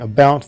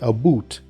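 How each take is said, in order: First: It is said in a standard, non-Canadian accent. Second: It is said in a Canadian accent. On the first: "instead of saying about" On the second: "they have a funny accent and they ... say about"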